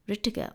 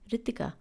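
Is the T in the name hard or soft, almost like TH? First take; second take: hard; soft. First: The T is hard, like in tomato. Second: The T is soft, almost like TH. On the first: This is how English speakers say it. "anyone who doesn't speak the language and who's an English speaker will call me Ritika" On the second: This is how Indian speakers say it. "anyone who's from India would call me Ritika"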